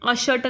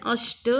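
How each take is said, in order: First: अषट said with a full vowel after ष; syllables split as अ-ष-ट; wrong full sh. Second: अष्ट with ष half, joined straight to ट. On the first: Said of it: "अषट नहीं है". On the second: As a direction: tight cluster in अष्ट. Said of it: "अष्ट आधा श". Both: Shown as a demonstration.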